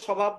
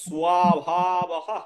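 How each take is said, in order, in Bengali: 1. শব্দটি শেষে কোনো শ্বাসযুক্ত ধ্বনি ছাড়া শেষ হয়। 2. শব্দটি শেষে একটি শ্বাসযুক্ত 'h' ধ্বনি দিয়ে শেষ হয়। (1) "স্বভাব বলা যাবে না" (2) "বলতে হবে স্বভাবহ"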